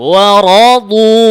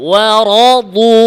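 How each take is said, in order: No difference in how they are said.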